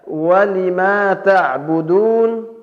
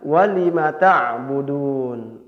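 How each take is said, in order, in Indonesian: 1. Vokal yang dipanjangkan tetap dibaca panjang. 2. Vokal yang dipanjangkan dibaca pendek.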